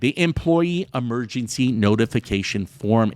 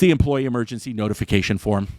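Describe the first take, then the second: First: The phrase is spoken slowly. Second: The phrase is spoken quickly.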